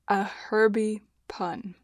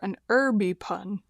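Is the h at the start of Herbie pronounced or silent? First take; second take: pronounced; silent. First: The word starts with an h sound. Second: The word starts without an h sound. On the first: "I say herb" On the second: "if you prefer to say it like that"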